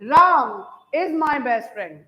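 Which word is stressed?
Ram. The word Ram carries the main stress. Only Ram is the best friend, no other person. "Ram पे ही मान लो stress दे दूं"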